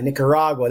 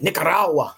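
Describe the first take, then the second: First: The name is said in a plain accent. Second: The name is said in a put-on accent.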